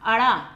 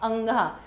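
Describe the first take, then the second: First: It is said with a flapped r sound. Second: It is said with a nasal sound. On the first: The speaker calls it wrong. "ज्यादातर लोग इसको क्या पढ़ते हैं, अड़ा, जो गलत है" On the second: The speaker calls it right. "तो हमने इसका उच्चारण कैसे किया"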